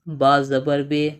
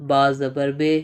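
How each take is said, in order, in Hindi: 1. आख़िरी स्वर 'e' जैसा सुनाई देता है। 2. आख़िरी स्वर 'e' जैसा सुनाई देता है।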